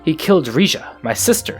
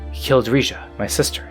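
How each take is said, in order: First: It is said with strong, forceful emphasis. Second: It is said softly and quietly.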